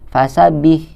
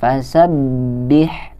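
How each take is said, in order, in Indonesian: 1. Bunyi b yang diulang tidak ditahan. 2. Bunyi b yang diulang ditahan sebentar. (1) "Apalagi nggak ditahan" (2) "kita harus membacanya dengan ditahan"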